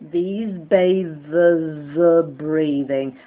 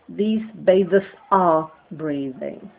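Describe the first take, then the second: First: The words are voiced and linked together smoothly. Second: The words are separated and not fully voiced. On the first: The speaker calls it right. "it's voiced and linked" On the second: The speaker calls it wrong. "some people among you who would do the wrong thing"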